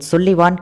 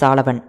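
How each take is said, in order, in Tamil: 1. முதல் உயிரெழுத்து 'u' போல ஒலிக்கிறது. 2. முதல் உயிரெழுத்து 'a' போல ஒலிக்கிறது. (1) "சுல்லிவான் கிடையாது" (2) "கிடையாது சாலவன்"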